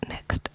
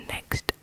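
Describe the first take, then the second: No difference in how they are said.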